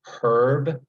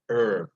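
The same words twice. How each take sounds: First: The word begins with an audible H sound. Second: The word begins without any H sound. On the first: This is how it is said on the East Coast. "on the East Coast" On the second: This is how it is said on the West Coast. "with the H silent"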